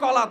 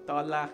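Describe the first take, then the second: First: The word begins with a k sound. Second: The word begins with a t sound. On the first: A grown person is speaking. The speaker calls it right. "শুদ্ধ করে বলে কলাকে কলা" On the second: A small child is speaking. The speaker calls it wrong. "কলাকে তলা বলে"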